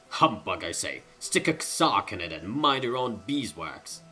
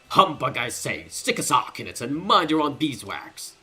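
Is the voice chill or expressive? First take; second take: chill; expressive. First: The character voice is relaxed and low-key. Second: The character voice is lively and animated.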